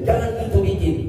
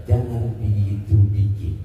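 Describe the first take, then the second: First: Forceful Batak delivery, pitched higher; Batak-style telling-off; Batak way of speaking. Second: Lower, slower, gentler take; calm, non-Batak reassuring version; changed tone. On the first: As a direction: say jangan gitu bikin the blunt Batak way. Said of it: "Coba saya roba dulu nadanya". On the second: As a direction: soften jangan gitu bikin, low and unhurried. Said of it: "Suaranya saya roba, gayanya saya roba". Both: Shown as a demonstration.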